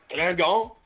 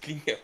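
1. Le nom se prononce à la française. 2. Le nom se prononce à l'anglaise. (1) "À la française" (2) "je pense que c'est Klingan"

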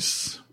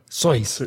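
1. Se dice como la mayoría de la gente lo dice. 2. Se dice como lo decía su dueño. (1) "el resto del mundo, todos estamos mal" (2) "Así lo pronunciaba"

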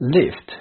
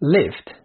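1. الصوت ده 'i' مقفول. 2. الصوت ده 'i' مقفول.

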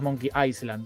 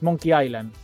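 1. La s en Island se pronuncia. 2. La s en Island es muda. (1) "no es" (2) "Se dice sin ese"

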